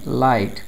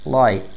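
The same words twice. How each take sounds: First: The t sound is clearly pronounced. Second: The t sound is dropped. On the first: "neutral accent में" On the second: "British accent में"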